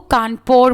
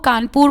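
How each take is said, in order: First: It is said with a British English pronunciation. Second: It is said with a native Hindi pronunciation. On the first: This is how foreigners said the name. "ये English accent है" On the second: This is the local name of the city. "Britishers को कानपुर बोलना तो आता नहीं था"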